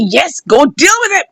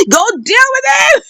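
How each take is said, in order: First: Acted gleeful urging; delighted and happy. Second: High-pitched gleeful cheer; delighted and happy. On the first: Mother egging on her son, delighted and happy. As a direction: cheer him on as the happy mother. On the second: Acted. Mother egging on her son in the fight, delighted and happy. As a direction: egg him on, voice leaping high. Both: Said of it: "mother was delighted and happy".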